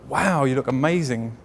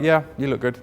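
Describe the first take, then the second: First: It is said with gushing, gasping excitement. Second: It is said in a calm, relaxed way.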